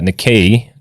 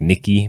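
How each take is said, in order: First: The word does not end like 'Nikki'. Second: The word ends like 'Nikki'. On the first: "I think is how it's pronounced" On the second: "on C N B C they pronounce it like Nikki"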